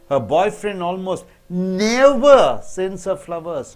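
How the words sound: The word never is stressed. He does not send flowers on any occasion. "When you stress so never"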